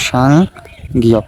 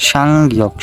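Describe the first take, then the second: First: সাংগিয়ক slowly, split into two parts with a long gap; slow pronunciation demo. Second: Said in the usual way. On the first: Shown as a demonstration. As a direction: draw out সাং, pause, then গিয়ক. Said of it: "একটার উচ্চারণ আছে". (সাংগিয়ক ধীরে ভেঙে ভেঙে উচ্চারণ) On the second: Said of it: "উচ্চারণ আছে".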